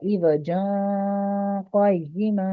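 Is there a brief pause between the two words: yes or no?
no. The two words run together without a pause.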